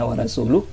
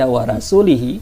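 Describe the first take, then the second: First: The vowel after the L is a U. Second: The vowel after the L is an I. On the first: God and His Messenger disown the polytheists. The speaker calls it right. "seharusnya maknanya demikian" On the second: God disowns the polytheists and His own Messenger. The speaker calls it wrong. "karena dibaca wa rasulihi"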